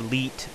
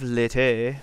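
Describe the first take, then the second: First: It is said in one syllable, like leet. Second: It is said in two syllables, like lady. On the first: "or you can pronounce it like Leet" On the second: "You can pronounce it like lady"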